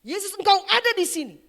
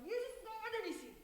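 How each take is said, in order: First: Loud, high cry to Jesus; imitated worship shout. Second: Soft, high, thin imitated cry; hushed cry to Jesus. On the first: Preacher voicing a convert in worship, full-voiced shout. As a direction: act out the convert crying out at full voice. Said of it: "dia mulai berteriak". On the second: Preacher voicing a convert in worship, hushed high cry. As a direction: act out a distant, awed cry, held back. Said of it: "dia katakan".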